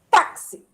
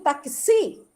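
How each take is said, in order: First: The stress is on the first syllable. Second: The stress is on the last syllable. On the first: The speaker calls it right. "Eu digo táxi. Então, a sílaba tônica é o tá" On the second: The speaker calls it wrong. "eu não digo taxi"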